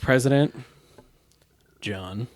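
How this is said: It is said with a disdainful tone. The speaker calls it right.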